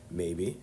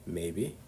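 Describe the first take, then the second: No difference in how they are said.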